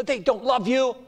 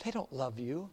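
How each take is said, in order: First: Said in the usual way. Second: Hushed accusing devil. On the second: Acted. Devil accusing at judgment seat.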